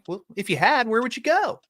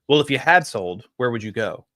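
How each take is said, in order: First: It is said with upward, happy energy. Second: It is said with flat, low energy.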